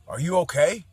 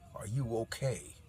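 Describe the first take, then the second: First: It is asked in a friendly, casual tone. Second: It is asked in a threatening, menacing tone.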